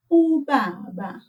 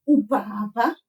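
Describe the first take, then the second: First: Ubaba slowly, with soft Bs; soft lips on a slow ubaba; correct soft B. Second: Ubaba with hard, blown-out Bs; wrong hard B. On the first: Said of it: "we say". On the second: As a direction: puff both Bs in ubaba, as a mistake. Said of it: "not ubaba". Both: Shown as a demonstration.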